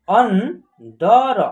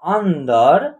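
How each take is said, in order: First: अंदर drawn out slowly, syllable by syllable; slow teaching read of अंदर; slow syllabified. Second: Said in the usual way. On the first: Shown as a demonstration. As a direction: stretch अंदर out for the class.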